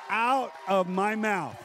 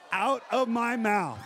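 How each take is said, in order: First: Slow weighty repeat of "Out of my mouth"; slow emphatic repeat. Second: Slow, laughing emphasis on "Out of my mouth"; drawn out with a laugh; slow emphatic aside. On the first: Preacher to congregation, slow weighty repeat. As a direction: let "Out" land slowly. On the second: Preacher to congregation, slow laughing emphasis. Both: Shown as a demonstration.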